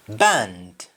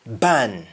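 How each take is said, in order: First: BAND with the final D sounded; English-style BAND, full "nd"; English pronunciation. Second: BAN stopping at the N; Jamaican pronunciation. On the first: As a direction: finish BAND on a clear D. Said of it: "ends with N D in English". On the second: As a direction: drop the D, just BAN. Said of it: "You only stop at N". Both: Shown as a demonstration.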